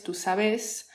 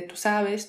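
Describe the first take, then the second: First: "sabes" stressed on the last syllable, sa-BÉS; voseo stress. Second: Said in the usual way. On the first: Shown as a demonstration. Contrasting voseo with standard Spanish, final-syllable stress. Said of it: "la tonada también cambia". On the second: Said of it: "o en vez de".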